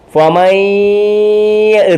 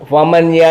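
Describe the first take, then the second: First: The n merges into a doubled nasal y. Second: The n is pronounced clearly before the y. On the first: The speaker calls it right. "മണിച്ചു പറയണം" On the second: The speaker calls it wrong. "ഫമൻയ ഫമൻയ എന്ന് പറയുകയില്ല"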